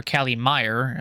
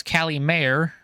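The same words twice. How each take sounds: First: "Meyer" said with a MY first syllable; pronunciation variant. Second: "Mayer" said with a MAY first syllable; pronunciation variant. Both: Shown as a demonstration. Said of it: "however you wanna pronounce it".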